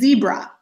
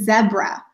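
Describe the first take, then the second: First: It is said in a Canadian accent. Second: It is said in a British accent.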